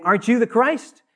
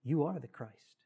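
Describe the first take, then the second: First: Raised, loud mocking question; scoffing, high and loud with a rising finish; sarcastic. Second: Soft, humble confession; hushed and reverent statement. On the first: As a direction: jeer it as a challenge, pitch climbing to the end. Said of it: "the first criminal sarcastically saying". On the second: Acted. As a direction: say it quietly, as a lowly acknowledgement. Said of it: "he humbly says".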